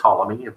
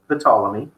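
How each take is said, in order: First: The initial P sound is silent. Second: The initial P sound is pronounced.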